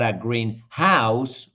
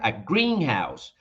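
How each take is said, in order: First: The stress is on house, after a short pause. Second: The stress is on green. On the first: It is a house painted green. "with that little pause between those two and more uh, strength on the second uh, word" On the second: It is a place where plants are grown. "the stress in this case goes in green"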